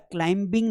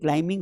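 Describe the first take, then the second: First: A b sound is heard after the m. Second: No b sound is heard after the m. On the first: The speaker calls it wrong. "बेटा क्लाइंबिंग नहीं होता है" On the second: The speaker calls it right. "ब है ही नहीं, क्लाइंबिंग होता है"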